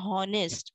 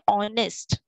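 First: The word starts with an audible h sound. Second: The word starts with a vowel sound, no h. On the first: The speaker calls it wrong. "we don't say honest" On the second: The speaker calls it right. "H is silent over here. We say honest"

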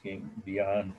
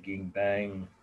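First: The second syllable sounds like 'bian'. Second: The second syllable sounds like 'bang'. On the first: This is how the speaker believes it is pronounced. The speaker calls it right. "but I think it's pronounced Ging Bian" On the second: Some people say it this way. The speaker calls it wrong. "some say Ging Bang"

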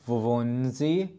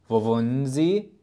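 The two takes are said the same way.

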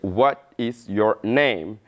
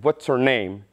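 First: It is said at a normal, unhurried pace. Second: It is said quickly, with words run together.

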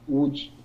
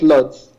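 First: The name begins with a W sound. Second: The name begins with an L sound. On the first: It is the way locals say it. The speaker calls it right. "we pronounce it Wuj" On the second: It is the way foreigners say it. The speaker calls it wrong. "Foreigners that don't know the correct pronunciation call it Lodz"

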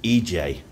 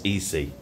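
First: The second letter sounds like 'jay'. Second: The second letter sounds like 'see'. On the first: This is the local pronunciation of the name. "I think you pronounce it EJ" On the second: This is the English pronunciation of the name. "but it's in English, it's EC"

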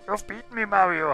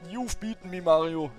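First: It is said in a put-on Bowser voice. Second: It is read in the speaker's normal voice.

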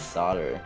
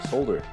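First: The word is said in an American accent. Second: The word is said in a non-American accent.

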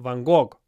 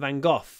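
First: The name has the Russian pronunciation. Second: The name has the English pronunciation. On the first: "And you call him Van Gogh" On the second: "Interesting that we call him Van Gogh"

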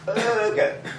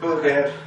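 First: The first vowel is long, as in 'bird'. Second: The first vowel is short, as in 'bug'. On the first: It is the food: a burger. The speaker calls it right. "First syllable stress. Second syllable is a schwa" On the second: It sounds like the rude word 'bugger'. The speaker calls it wrong. "if you pronounce it slightly wrongly"

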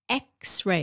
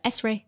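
First: The word begins with an 'eks' sound. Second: The word begins with an 'ess' sound. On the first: The speaker calls it right. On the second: The speaker calls it wrong. "Chứ không phải là S-ray"

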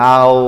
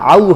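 First: The syllable ends with an 'o' sound. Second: The syllable ends with a clear 'u' sound. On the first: The speaker calls it wrong. "মূলত এভাবে উচ্চারণ হয় না" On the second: The speaker calls it right. "ওয়াউতে সবসময় উ উচ্চারণ হয়"

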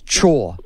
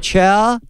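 First: The vowel sounds like the word 'chores'. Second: The vowel sounds like the word 'our'. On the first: The speaker calls it right. "like do your chores" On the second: The speaker calls it wrong. "I just went our and added the ch"

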